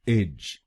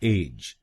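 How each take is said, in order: First: The syllable is said with an 'ij' vowel. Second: The syllable is said with an 'ej' vowel. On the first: The speaker calls it right. "इसको बोलिएगा इज इज" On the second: The speaker calls it wrong. "गलत pronunciation में हम इस शब्दांश को बोलते हैं एज"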